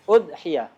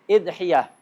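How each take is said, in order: First: It starts with u and has a single y. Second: It starts with i and has a single y. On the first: "Hamzahnya di dhammah, ya-nya di takhfif" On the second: "Atau hamzahnya di kasrah. ... ya-nya takhfif"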